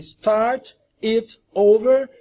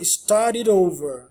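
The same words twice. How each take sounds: First: The words are said as separate words. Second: The words run together with flapped t's.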